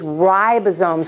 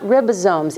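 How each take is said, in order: First: The first vowel is a long I sound. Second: The first vowel is a short I sound. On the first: The speaker calls it right. "with a long I" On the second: The speaker calls it wrong. "It is not ribosomes"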